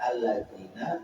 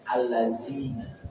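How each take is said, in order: First: The middle consonant is a dzal sound. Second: The middle consonant is a zai sound. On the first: The speaker calls it right. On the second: The speaker calls it wrong.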